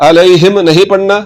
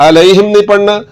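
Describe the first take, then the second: The two takes are said the same way.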